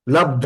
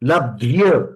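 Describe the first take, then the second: First: The word ends on a plain dh sound. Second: The word ends with a dh plus y glide. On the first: The speaker calls it wrong. "लब्ध नहीं" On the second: The speaker calls it right. "ध भी है और यह भी है"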